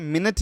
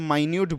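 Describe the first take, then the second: First: It is said as minit, stress on first syllable. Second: It is said as my-newt, stress on second syllable. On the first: It means a unit of time. The speaker calls it wrong. "मिनट नहीं बोलेंगे" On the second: It means very tiny. The speaker calls it right. "इसको हम लोग यहाँ पे माइन्यूट बोलेंगे"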